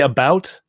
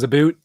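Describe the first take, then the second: First: The vowel sounds like standard English 'ow'. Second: The vowel sounds like 'oo', Canadian-style. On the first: "When I say "about"" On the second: "it goes "aboot,""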